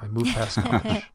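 It is said in a theatrical, dramatic voice. "I'm going to do my drama voice now"

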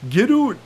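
It is said in a Canadian accent.

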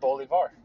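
The name is said the South American way. It is the pronunciation from the name's origin. "South America. And it's Bolivar"

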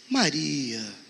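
It sounds sad and disappointed.

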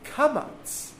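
The first vowel sounds like 'ah', Sephardic style.

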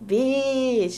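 It is said in an admiring, impressed tone. A compliment is about to follow. "that mean like I'm about to compliment you"

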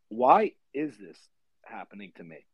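It sounds like a genuine, reflective question.

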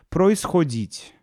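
It has clear unstressed o, northern dialect.

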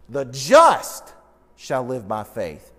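The word just is stressed. "the focus is on the word just"

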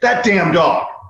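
The tone is annoyed and scolding. The dog is being scolded. "she just shit on the floor"

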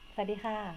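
The greeting is said smiling, in a happy tone. "ยิ้มอยู่นะคะเป็นแบบมีความสุข"

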